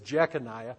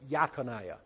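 First: The name begins with a J sound. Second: The name begins with a Y sound. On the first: This is how the name is read today. "you would read it as Jeconiah" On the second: This is how the name was originally pronounced. "They would have pronounced it as Yaconiah"

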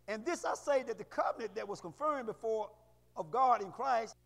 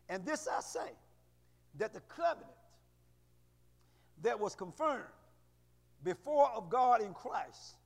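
First: It is read fast. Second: It is read slowly.

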